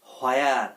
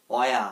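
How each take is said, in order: First: "হোয়ার" with a sounded h, "ho-ea"; mispronounced h. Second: "অয়া" as a short "wea", no h; silent h. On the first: Teacher showing learners the common mistake, "হোয়ার" with added h. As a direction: start "হোয়ার" on a breathed "ho". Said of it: "হ আসবে না". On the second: Teacher giving learners the correct form of where, "অয়া" with silent h. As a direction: open "অয়া" on a w glide, ending without an r. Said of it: "এটার উচ্চারণ হবে". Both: Shown as a demonstration.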